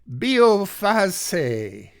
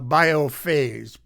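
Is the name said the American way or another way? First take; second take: another way; American. First: The name is said without an American pronunciation. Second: The name is said with an American pronunciation. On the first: The speaker calls it right. "I heard it pronounced correctly online" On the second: The speaker calls it wrong. "for Americans, we would probably say"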